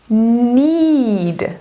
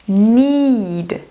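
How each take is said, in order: The two takes are said the same way.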